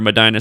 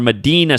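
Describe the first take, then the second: First: The middle syllable sounds like 'dye'. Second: The middle syllable sounds like 'dee'. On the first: The speaker calls it wrong. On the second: The speaker calls it right.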